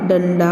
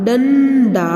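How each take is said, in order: First: Said in the usual way. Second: डंडा with a long hummed "ḍan", then "da"; drawn-out nasal डंडा in two parts; syllable-split nasal demo. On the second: Shown as a demonstration. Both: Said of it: "हम नासिका द्वारा इसका उच्चारण".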